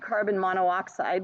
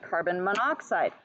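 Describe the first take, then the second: First: The o of mono is kept before oxide. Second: The o of mono is dropped before oxide. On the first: The speaker calls it wrong. "we don't say carbon monoxide" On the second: The speaker calls it right. "we say carbon monoxide"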